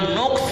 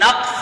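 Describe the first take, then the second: First: The first vowel is an u sound. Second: The first vowel is an a sound. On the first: "नून पर पेश है" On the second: "नून पर फतहा"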